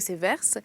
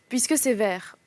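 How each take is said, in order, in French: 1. Le s final de vers est prononcé. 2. Le s final de vers est muet.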